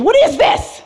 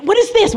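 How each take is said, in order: First: Much higher, laughing squeal of disgust; squeaky laughing disgust at the licorice liqueur. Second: Higher, alarmed sniff-test question; suspicious question after sniffing the drink; startled question. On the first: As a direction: push the repeat up into a squeaky laughing shriek. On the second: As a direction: recoil at the smell. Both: Retold or imitated. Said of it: "and I'm like".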